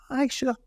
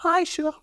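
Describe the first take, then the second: First: High-pitched eager wee Highland mum; imitating his mum saying yes; mum's eager reply. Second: Even higher, eager wee Highland mum; hammed-up mum accepting a full glass; mum's keener reply. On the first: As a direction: pitch it up like a keen little mum. Mum voiced in a story. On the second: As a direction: push the pitch up further, delighted. Mum voiced again, even keener.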